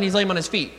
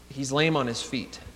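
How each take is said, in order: First: It is said in a casual, matter-of-fact tone. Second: It is said in a somber, emphasized tone. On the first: It is just a plain fact being reported. The speaker calls it wrong. "as a matter of factly as maybe we read it" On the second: The handicap is a reason for rejection. The speaker calls it right. "with a little more of a somber, sober tone"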